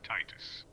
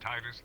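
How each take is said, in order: First: The name is said forcefully and overpronounced. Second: The name is said plainly and casually. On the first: "I'm gonna overpronounce it now because it just it, it sounds powerful" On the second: "There's Titus"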